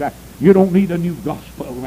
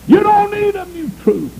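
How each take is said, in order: First: Said in the usual way. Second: Much higher and louder, DON'T hammered; rising preacher shout. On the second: Shown as a demonstration. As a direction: lift it up and hit don't hard. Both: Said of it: "preacher building the repeated line".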